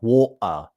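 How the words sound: The T is a stop in the throat. "a glottal stop"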